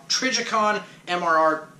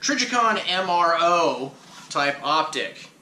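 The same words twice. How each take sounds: First: "Trijicon M R R" fumbled, the letters tripping; tongue-tied stumble. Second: "Trijicon M R O" said slowly, each letter spelled out; careful slow correction. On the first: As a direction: trip over "Trijicon M R R" as the tongue slips. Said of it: "oh my god, I can't talk, sorry". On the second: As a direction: spell out "Trijicon M R O" deliberately after the slip. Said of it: "I can't talk, sorry". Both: Real, not acted.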